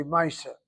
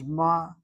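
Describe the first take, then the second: First: Two syllables, "maaseh" with an "eye" vowel; Yiddish pronunciation. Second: Ma'aseh slowly broken into ma, ah, seh; slow, careful Hebrew ma'aseh with open "ah" vowels; proper Hebrew pronunciation. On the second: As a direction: sound out ma'aseh syllable by syllable, MA-AH-SEH. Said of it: "The proper Hebrew is". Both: Shown as a demonstration.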